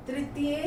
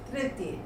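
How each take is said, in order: First: तृतीय opening with "tri", full final "ye"; mispronounced. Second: Said in the usual way. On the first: Shown as a demonstration. Teacher reads the error list, mispronounced तृतीय as "tritiye". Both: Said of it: "बोलने में हम कुछ और बोलते".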